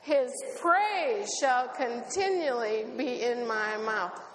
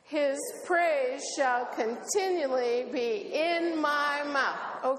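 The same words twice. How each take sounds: First: The stress falls on the word his. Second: The stress falls on the word mouth. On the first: It is his praise, not anything else. "What's continually in your mouth? His praise. Say it that way" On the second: The praise is in the mouth, not elsewhere. "Where is his praise? In your mouth. Let's do it"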